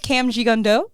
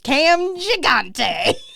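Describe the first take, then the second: First: The surname ends with a 'gondo' sound. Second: The surname ends with a 'gante' sound. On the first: The speaker calls it right. "But I believe his name is Cam Gigondo" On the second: The speaker calls it wrong. "My brain full stop reads that name every time as Cam Gigante, which I don't think is, is correct"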